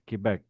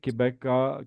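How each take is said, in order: First: The word ends cleanly on a consonant sound. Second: The word ends with an added vowel sound. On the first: The speaker calls it right. "It's Quebec" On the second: The speaker calls it wrong. "It's not Quebeca"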